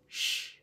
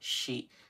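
First: The syllable is a bare sh with the vowel dropped. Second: The syllable has a full voiced vowel after sh. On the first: The speaker calls it right. "They say sh" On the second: The speaker calls it wrong. "Japanese people do not say she"

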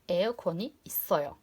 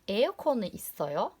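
First: The pitch falls at the end. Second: The pitch rises at the end. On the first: It states that there is an air conditioner. "Normal cümle kuracaksanız sesletimizi biraz sonda aşağıya iletiyorsunuz" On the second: It asks whether there is an air conditioner. "Soru sormak istediğinizde sesletimi biraz daha yukarı çekiyorsunuz"

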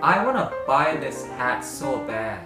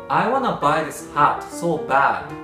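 First: The vowel in hat lies between a and e. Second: The vowel in hat is a plain Japanese a.

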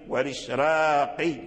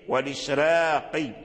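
First: The r is pronounced light and thin. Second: The same.

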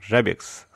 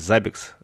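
First: The name begins with a 'zh' sound. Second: The name begins with a 'z' sound. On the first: The speaker calls it wrong. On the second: The speaker calls it right.

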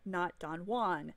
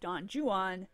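First: Juan is said with one syllable. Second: Juan is said with two syllables. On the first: The speaker calls it wrong. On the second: The speaker calls it right. "Yes, Don Juan"

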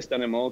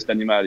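First: It is pronounced the English way. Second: It is pronounced the French way. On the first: "I say STANIMAL because it's just more international" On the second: "but in French, you would say STANIMAL"

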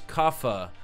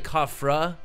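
First: No r sound follows the f. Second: An r sound follows the f. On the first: The speaker calls it right. "but it's Kafa" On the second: The speaker calls it wrong. "I want to say Kafra"

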